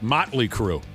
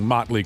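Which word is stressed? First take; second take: Motley; Crue. First: The stress falls strongly on Motley. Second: The stress falls normally on Crue. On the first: "put that emphasis on the Motley" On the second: "Instead of just saying"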